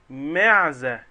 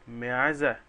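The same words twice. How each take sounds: First: معزة called out loud and falling, stressing the first syllable; a teacher's loud model of the word; emphatic answer. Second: Said in the usual way. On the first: Shown as a demonstration. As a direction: belt out معزة for the class. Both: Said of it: "مين يقدر يجيب لي كلمة تانية فيها حرف الميم".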